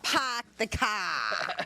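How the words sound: It is said in a Boston accent.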